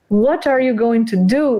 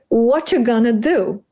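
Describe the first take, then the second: First: Every syllable is said clearly and evenly. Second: Some syllables are dropped in a stress rhythm.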